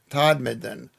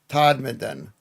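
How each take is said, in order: No difference in how they are said.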